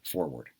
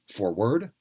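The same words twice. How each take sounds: First: "forward" as for-WARD; "forward" with its second syllable stressed. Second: "forward" as FOR-ward; "forward" with its first syllable stressed. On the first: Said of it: "or do we say forward". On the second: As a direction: hit FOR in "forward", second syllable light. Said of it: "if the stress was on the first syllable". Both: Shown as a demonstration.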